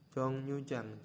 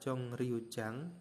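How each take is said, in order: First: The second syllable begins with an N sound. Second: The second syllable begins with an R sound. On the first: "dibacanya Jongnyujang" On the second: "Tulisannya adalah Jongryujang"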